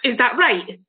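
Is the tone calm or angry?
angry. It sounds angry and confrontational.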